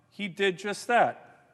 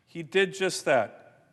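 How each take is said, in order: First: Slow, weight landing on "that"; slow, land hard on the final word "that"; slow and deliberate, leaning on "that"; stress on that. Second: Slow, with "did" punched; slow, hit the word "did" hardest; deliberate repeat, leaning on "did"; stress on did. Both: Real, not acted. Emphatic repeated line.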